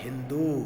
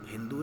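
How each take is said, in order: First: The final vowel is long. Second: The final vowel is short. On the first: The speaker calls it right. "बड़ो की मात्रा लगेगी इसमें" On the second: The speaker calls it wrong. "नहीं"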